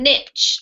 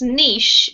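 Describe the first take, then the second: First: It is said with an American pronunciation. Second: It is said with a British pronunciation.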